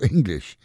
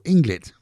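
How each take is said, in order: First: It is said with a native English accent. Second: It is said with a Thai-style accent.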